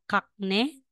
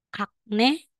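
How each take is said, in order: The two takes are said the same way.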